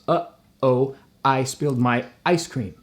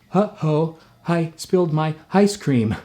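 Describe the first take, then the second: First: The vowels begin with sharp glottal catches. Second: The vowels begin with a breathy h sound. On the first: "in one sentence I've done four glottals" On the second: "If I wanted to really avoid the glottal"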